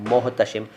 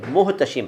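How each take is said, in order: First: The first vowel is pronounced as 'o'. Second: The first vowel is pronounced as 'u'. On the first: The speaker calls it wrong. "कई लोग मोहतशिम रखते हैं" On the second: The speaker calls it right. "दरअसल ये मुहतशिम है"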